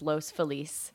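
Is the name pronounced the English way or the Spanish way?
Spanish. The name is said with Spanish pronunciation. "If you're gonna say it with the correct Spanish pronunciation"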